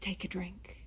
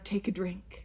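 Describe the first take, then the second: First: It is said quietly. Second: It is said more loudly.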